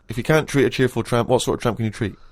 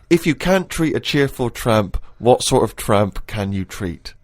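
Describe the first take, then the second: First: The sentence is said quickly, like a tongue twister. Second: The sentence is read at a normal pace.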